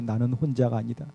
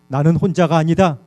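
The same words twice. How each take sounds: First: It is said in a tiny, faint voice. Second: It is said in a clearly louder voice.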